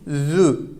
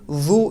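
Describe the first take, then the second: First: The vowel is a central sound, between u and ü. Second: The vowel is a thick, back u sound. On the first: The speaker calls it right. "Zü sesi gelecek. Ne çok kalın u ne de çok ince ü sesi" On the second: The speaker calls it wrong. "Zu değil"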